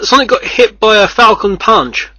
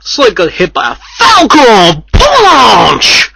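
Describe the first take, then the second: First: It is read flatly, without energy. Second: It is said loudly, with excitement.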